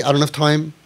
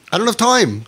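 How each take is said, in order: First: Said in the usual way. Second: I don't have time pitched higher, pushing it; insistent repeat. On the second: Pretend. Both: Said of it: "We would feel like".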